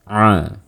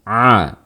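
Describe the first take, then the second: First: The sound resonates through the nose. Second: The sound comes fully through the mouth. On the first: The speaker calls it wrong. "Suaranya keluar melalui rongga hidung kita. Jadi suaranya akan terdengar seperti ini" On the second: The speaker calls it right. "mengeluarkan suara seluruhnya melalui mulut kita. Tekan a"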